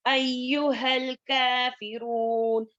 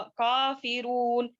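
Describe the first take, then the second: First: काफिरून with a thin, light क from the back of the mouth, slow; light kaf. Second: काफिरून with a thick, heavy क, drawn out slow; heavy kaf, wrong way. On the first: Teacher recites the correct light kaf for students, slow. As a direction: say काफिरून lightly, not heavy, drawn out. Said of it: "काफ जो है बारीक पढ़ेंगे". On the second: Teacher demonstrates the wrong thick kaf to avoid, slow. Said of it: "इसको जो है मोटा का". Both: Shown as a demonstration.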